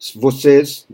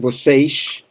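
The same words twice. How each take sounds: First: It is said in standard Brazilian Portuguese. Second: It is said with a Rio accent.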